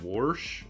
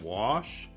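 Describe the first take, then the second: First: It is said with a regional Minnesota pronunciation. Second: It is said with the standard pronunciation. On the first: This is how an older relative said it. "she would always use the word wash" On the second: This is the usual way to say it. "instead of wash"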